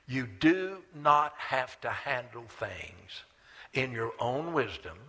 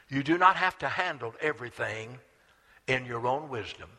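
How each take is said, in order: First: It is said slowly. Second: It is said at normal speed.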